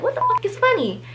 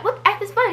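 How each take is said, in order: First: High mock snap, swear left in; mock angry retort. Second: High, shrill-pitched mock snap; mock angry retort. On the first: Offended friend cursing at the laughing sisters, high mock snap. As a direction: repeat her line as she really said it, high and cutting. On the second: Offended friend snapping at the laughing sisters, high mock retort. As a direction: throw it back as the offended friend, censored.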